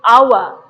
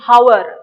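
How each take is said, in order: First: The word starts with a vowel, h silent. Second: The word starts with an audible h sound. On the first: The speaker calls it right. "You're saying our" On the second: The speaker calls it wrong. "you're not saying hour, no"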